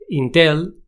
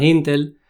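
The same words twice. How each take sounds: First: "Intel" a la española, acento al final; pronunciación españolizada. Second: "Intel" stressed on the first syllable; pronunciación inglesa. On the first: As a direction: say "Intel" the Spanish way, stressed on the last syllable. ("Intel" pronunciado a la española) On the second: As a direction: say "Intel" English-style, stress up front. ("Intel" con acento en la primera sílaba) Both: Shown as a demonstration. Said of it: "que no es Intel".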